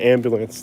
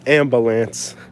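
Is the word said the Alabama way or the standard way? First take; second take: standard; Alabama. First: It is said in a standard American way. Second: It is said in an Alabama regional way. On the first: "In Alabama, they don't say ambulance" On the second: "They say ambulance"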